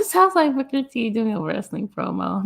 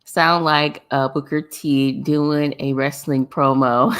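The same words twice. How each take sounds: First: Laughing through it, pitched up; repeating it while cracking up. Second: Said in the usual way. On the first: Real, not acted. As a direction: giggle as you repeat it.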